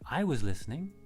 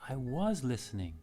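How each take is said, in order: First: The stress falls on the word I. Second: The stress falls on the word was. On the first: Someone else did listen, namely the speaker. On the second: The listening really did happen, contrary to the claim.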